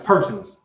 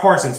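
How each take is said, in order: First: The first syllable sounds like 'per'. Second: The first syllable sounds like 'par'. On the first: The speaker calls it right. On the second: The speaker calls it wrong. "I was saying it wrong. Not Parsons"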